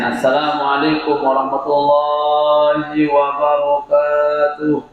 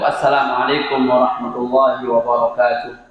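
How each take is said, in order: First: It is said drawn out with melodic ornaments. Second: It is said plainly, without drawn-out ornaments.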